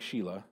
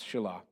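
First: The first vowel is a long 'ee' sound. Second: The first vowel is a short 'eh' sound. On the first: The speaker calls it wrong. "I know it looks like Sheila" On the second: The speaker calls it right. "but it's Shelah"

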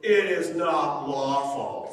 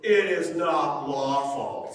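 First: It is said in a haughty, condescending tone. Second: The same.

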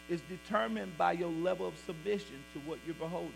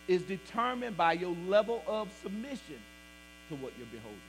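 First: The sentence is spoken at a normal, quicker pace. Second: The sentence is spoken at a noticeably slower pace.

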